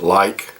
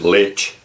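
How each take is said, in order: First: The word ends with a hard k sound. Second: The word ends with a ch sound. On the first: The speaker calls it right. "That's how I'd pronounce it" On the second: The speaker calls it wrong. "I wouldn't pronounce it lich"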